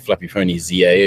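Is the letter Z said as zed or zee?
zee. The letter Z is said as zee, American style.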